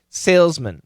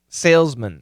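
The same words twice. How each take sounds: First: The last syllable has a reduced schwa vowel. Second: The last syllable has a reduced schwa vowel.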